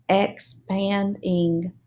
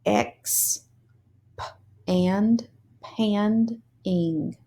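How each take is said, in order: First: Said in the usual way. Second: "Ex- p- and pand- ing" split into syllables; sounded out syllables. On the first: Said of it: "read the word fast". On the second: Shown as a demonstration. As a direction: sound out expanding piece by piece. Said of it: "read these long words already broken into syllables".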